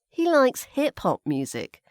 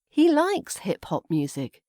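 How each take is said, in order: First: The word hip-hop carries the stress. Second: The word likes carries the stress. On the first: He likes hip-hop rather than other genres. "So hip-hop, maybe not pop music or classical music" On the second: He really likes it, not just casually. "put the stress on the word likes"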